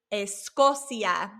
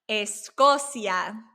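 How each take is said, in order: Both takes have the same delivery.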